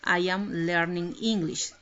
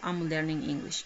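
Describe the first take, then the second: First: I am is said as two full words. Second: I am is contracted into one syllable.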